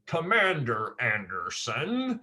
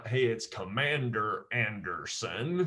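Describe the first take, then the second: First: Slow, lightly drawled agent voice; a hint of the Matrix agent. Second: Said in the usual way. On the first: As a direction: lean into the name like the film agent, lightly. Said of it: "one of the agents talks like this". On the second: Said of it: "Only this time".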